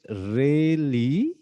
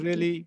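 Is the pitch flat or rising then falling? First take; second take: rise-fall; flat. First: The pitch rises and then falls. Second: The pitch stays flat throughout. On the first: The listener finds it interesting. "नीचे से इसको ऊपर उठाऊं tone को, और ऊपर से फिर ऐसे नीचे लाऊं" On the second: The listener is not interested. "इसका मतलब फ्लैट आपने"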